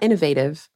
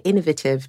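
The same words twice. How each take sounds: First: It is said a way other than the English one. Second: It is said the way people in England say it. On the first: "not innovative" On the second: "I live in England and people say innovative"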